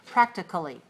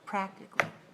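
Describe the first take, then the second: First: The vowel before the ending is a weak schwa. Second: The vowel before the ending is dropped entirely. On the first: "Make it really short, very short, and weak. Reduce it, uh, schwa sound" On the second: "just get rid of it altogether"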